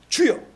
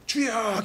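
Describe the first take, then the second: First: The word is said short and clipped. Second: The word is drawn out long.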